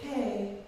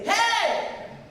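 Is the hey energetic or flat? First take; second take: flat; energetic. First: It is said flat and low-energy. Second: It is said loud and full of energy.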